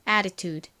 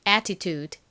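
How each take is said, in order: First: The middle t sounds like a quick r. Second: The middle t is a clear t sound.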